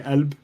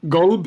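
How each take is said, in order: First: The word begins with a glottal stop. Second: The word begins with a hard G sound. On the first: This is the Levantine form. "in the Levant, where I'm from, it's a glottal stop" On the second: This is the Gulf form. "Gulb is how you'd say it in the Gulf"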